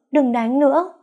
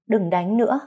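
First: Much higher, louder pretend wail; hammed-up crying scream; fake wailing plea. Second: Higher, pretend tearful begging; a hint of faked weeping; fake crying plea. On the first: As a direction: wail it as if truly beaten. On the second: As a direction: beg him to stop in mock sobs. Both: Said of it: "bắt đầu khóc lóc thê lương".

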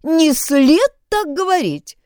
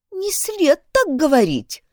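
First: Mimicking a prissy voice, slowed; mocking imitation. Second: Affected, prim schoolgirl voice; prissy little voice. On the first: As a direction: parrot it back with scorn. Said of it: "Только послушайте Шейлу". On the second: A narrator's reading. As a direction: say it primly and affectedly. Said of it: "жеманным голоском сказала Шейла".

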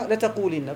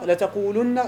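First: لتقولن said letaqulinna, i vowel before the nun; لتقولن voiced with i, the feminine form. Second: لتقولن said letaqulunna, u vowel before the nun; لتقولن voiced with u, the plural form. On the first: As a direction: say لتقولن with a clear kasra, letaqulinna. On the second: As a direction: say لتقولن with a clear damma, letaqulunna. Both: Shown as a demonstration. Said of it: "كيف تفرق بين لتقولن".

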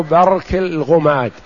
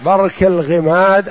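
First: الغماد said ghumad, u-vowel after ghayn; damma on الغماد. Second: الغماد said ghimad, i-vowel after ghayn; kasra on الغماد. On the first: Teacher showing students a variant place name, الغماد with damma. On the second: Teacher showing students a variant place name, الغماد with kasra. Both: Shown as a demonstration. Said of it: "بضم الغين وكسر الغين".

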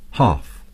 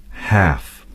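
First: "half" with a long broad ah vowel; British half. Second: "half" with a flat short a; American half. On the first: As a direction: say "half" like "hahf". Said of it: "The British would say". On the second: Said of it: "Americans would say". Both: Shown as a demonstration.

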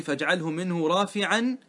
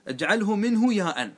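First: Slow verse quote; slow recitation; quoted verse. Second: Slow with منه stressed; explaining paraphrase. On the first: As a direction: recite the verse line measured. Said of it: "هذا معنى قولي". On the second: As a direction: spell out the meaning, stressing منه. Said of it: "هذا المعنى". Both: Shown as a demonstration.

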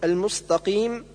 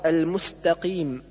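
First: المستقيم with heavy emphatic s; seen as sad. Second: المستقيم with thin clear s; correct seen. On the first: Teacher showing the error, heavy s in المستقيم. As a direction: thicken س to ص in المستقيم. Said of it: "جعل السين صادا". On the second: Teacher correcting, plain s in المستقيم. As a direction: keep س light in المستقيم. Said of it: "والصواب". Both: Shown as a demonstration.

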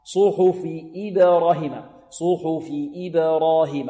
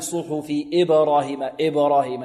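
First: "إبراهيم" begun with a clean "ib"; slow chant, true i opening "إبراهيم"; full kasra. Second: "إبراهيم" begun as "eb"; wrong kasra. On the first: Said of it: "لا يعطون الكسرة حقها". (تحقيق كسرة "إبراهيم") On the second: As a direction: slacken the first i of "إبراهيم" into e. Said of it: "لا نقول". ("إبراهيم" بكسر غير محقق) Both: Shown as a demonstration.

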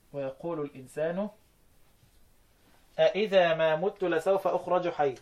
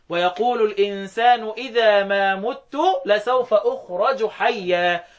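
First: أإذا بهمزتين: استفهام واضح; انطق أإذا بهمزة الاستفهام ثم همزة; قراءة بالاستفهام. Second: إذا بهمزة واحدة بلا استفهام; اقرأ إذا بهمزة واحدة خبرًا; قراءة بالإخبار. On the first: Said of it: "قال لك وأخبروا". (تلاوة أإذا بالاستفهام) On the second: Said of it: "ابن زكوان يقرأ بالإخبار". (تلاوة إذا بالإخبار) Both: Shown as a demonstration.

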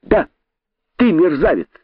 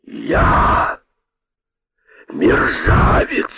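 First: High, gleeful taunt; joyful cry. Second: Slow, breath-heavy indignant repeat; speechless anger. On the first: Impudent rabbit confirming the insult to python, gleeful high cry. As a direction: fire it back with delight. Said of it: "радостно закричал дерзкий кролик". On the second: Python repeating the rabbit's insult, slow speechless anger. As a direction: stretch each word out, choked with outrage. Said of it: "не находя слов от гнева". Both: A narrator's reading.

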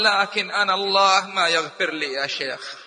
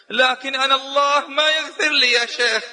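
First: Said in the usual way. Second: يائس قليلا، كلمة "ما" مشددة ومرفوعة; توسّل شاب قانط بلمسة حزن خفيفة; حزن مقلَّد. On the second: Retold or imitated. (الشاب للشيخ بحزن ويأس خفيف) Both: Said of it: "فنظر إلي بحزن".

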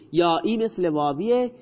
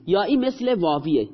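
First: یائی مثل واویه with واویه lifted and rising at the end; stress on واویه. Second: یائی مثل واویه with مثل pushed out hardest; stress on مثل. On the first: Father repeating the rule to his child, stressing واویه. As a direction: land the weight on واویه. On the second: Father teaching grammar to his child, stressing مثل. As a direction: lean on مثل, let واویه fall. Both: Shown as a demonstration.

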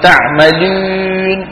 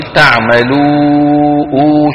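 First: Drawn-out تعملون with the و fronted to "ü"; waw mixed with ya. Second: Long clear "oo" held at the end of تعملوا; pure waw. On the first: Retold or imitated. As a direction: mimic the fault, holding a French ü in تعملون. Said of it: "ما بيصيروا". (تعملون بواو مخلوطة بالياء) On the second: Shown as a demonstration. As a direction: draw out a clean rounded oo in تعملوا, free of nasality. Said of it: "صافية". (تعملوا بواو صافية ممدودة)

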